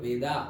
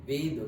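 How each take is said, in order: First: The word ends with an added final 'a' vowel. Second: The word ends on a consonant, no final vowel. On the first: This is the form used when speaking English. "English में ये लगाते हैं इसलिए हम वेदा" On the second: This is the native Sanskrit and Hindi pronunciation. "ऐसे actually वेद ही pronounce करते हैं"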